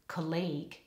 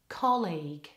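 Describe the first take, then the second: First: The stress is on the second syllable. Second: The stress is on the first syllable. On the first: The speaker calls it wrong. "they put the stress on the wrong syllable" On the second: The speaker calls it right. "with really good stress on the first syllable"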